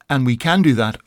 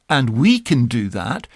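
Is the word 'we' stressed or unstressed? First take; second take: unstressed; stressed. First: The word 'we' is not specially emphasized. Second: The word 'we' carries the main emphasis. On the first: It simply affirms the ability. "That's what I said" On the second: It contrasts us with others who cannot. "And now re-emphasize that as"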